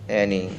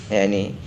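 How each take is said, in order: The two takes are said the same way.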